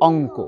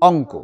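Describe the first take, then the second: Both takes have the same delivery.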